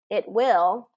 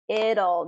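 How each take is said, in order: First: Two full words with a clear t. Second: Contracted, the t sounds like a d.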